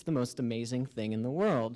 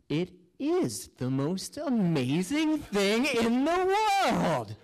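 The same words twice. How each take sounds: First: Said in the usual way. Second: Slow, rising swell to a high, drawn-out finish; awestruck wonder. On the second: Acted. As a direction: marvel at it, stretching and lifting every word. Acting out sudden wonder at ceiling.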